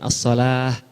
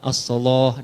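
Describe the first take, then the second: First: The L is pronounced light and thin. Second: The L is pronounced heavy and thick. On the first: The speaker calls it wrong. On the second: The speaker calls it right. "Dibaca pakai lafaz tafkhim huruf lam"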